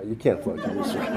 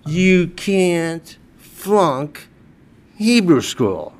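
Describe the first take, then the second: First: Softer, chuckling through "you can't flunk Hebrew school"; laughing softly. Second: "you can't flunk" dragged out very slowly, "Hebrew school" falling; slow emphatic punchline. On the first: Real, not acted. Telling the rabbi the joke again, softly laughing. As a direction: let the laugh leak in. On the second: Retold or imitated. Husband defending himself to his wife, very slow and deliberate. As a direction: spell out every word of it.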